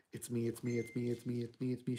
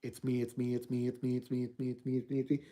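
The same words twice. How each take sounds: First: Soft, low, tender repeating of it's me; warm, gentle woman. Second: Low, soft chant of a menacing spirit, repeating; angry onslaught of noise. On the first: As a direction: hush each "it's me" like a comforting mother. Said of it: "a warm, gentle one". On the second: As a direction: press the words in again and again like a haunting. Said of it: "Just under the angry onslaught of noise". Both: Acted.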